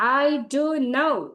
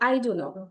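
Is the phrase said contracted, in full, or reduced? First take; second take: in full; reduced. First: Every word is said fully and separately. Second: The contraction is further reduced and run together. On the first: The speaker is annoyed about not knowing. "তার মানে হচ্ছে আমি খুব রেগে বলছি" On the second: The speaker does not know, said casually. "আরো informally বললে"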